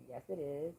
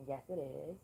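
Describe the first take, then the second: No difference in how they are said.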